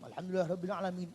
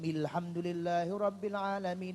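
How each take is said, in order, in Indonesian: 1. Dibacanya cepat dan terburu-buru. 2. Dibacanya pelan dan tidak terburu-buru. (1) "gobrol gabrul pokoke gaco cepet pokoke" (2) "Nek carane begitu Fatihah sah dan salatnya sah"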